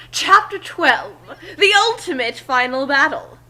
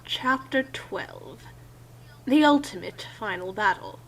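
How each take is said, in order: First: Excited. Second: Bored. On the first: Acted. Narrator redoes the chapter title, dramatic. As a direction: announce it like an epic trailer. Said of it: "that is sort of cool". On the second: Real, not acted. Reading the chapter title, flat and bored. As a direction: drone it like you couldn't care less. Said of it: "you shouldn't sound that bored".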